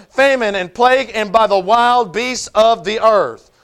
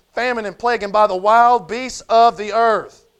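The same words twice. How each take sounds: Both takes have the same delivery.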